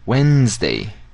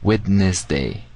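First: It is said in its normal spoken form. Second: Every written letter is sounded out. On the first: This is how the word is actually pronounced. "We say Wednesday" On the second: This helps remember how the word is written. "but we write Wednesday"

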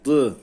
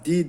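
First: The d is thick with a back vowel. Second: The d is thin with a front vowel. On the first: The speaker calls it right. "Dayı kalın okuyoruz" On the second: The speaker calls it wrong. "Di demiyoruz"

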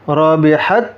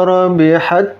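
The two takes are said the same way.

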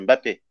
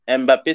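First: The initial M is not sounded as separate. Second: The initial M is sounded as a separate sound. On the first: The speaker calls it right. "c'est Mbappé" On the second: The speaker calls it wrong. "ça se dit pas"

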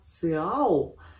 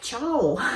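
First: The word begins with a 'ts' sound. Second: The word begins with a 'ch' sound. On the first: The speaker calls it right. "наверное, так правильно называется" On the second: The speaker calls it wrong. "я почему-то читаю это как Чао"

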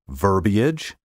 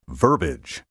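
First: The word is said with three syllables. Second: The word is said with two syllables. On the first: The speaker calls it right. "Take care to pronounce these words in three syllables" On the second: The speaker calls it wrong. "often mispronounced, as if it had only two syllables"

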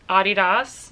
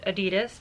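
First: It is said the international, non-American way. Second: It is said the common American way. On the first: "I pronounce it the rest of the world way" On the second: "Most Americans pronounce it Adidas"

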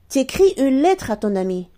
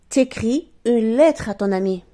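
First: The vowel of 'tu' is dropped entirely. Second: The vowel of 'tu' is dropped entirely.

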